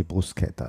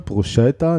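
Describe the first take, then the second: First: "Bruschetta" with a hard sk, as brus-KET-ta; lower, softer "Bruschetta" with Italian sk; Italian sk pronunciation. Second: "Bruschetta" with a sh sound in the middle; German sch pronunciation. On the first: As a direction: say "Bruschetta" with k, not sh. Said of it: "Nee, Bruschetta, das kennt man". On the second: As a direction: say "Bruschetta" the German way, as bru-SHET-ta. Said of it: "In Deutschland wird oft ein Sch". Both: Shown as a demonstration.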